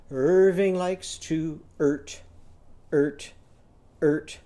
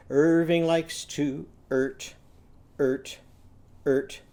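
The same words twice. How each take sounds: The two takes are said the same way.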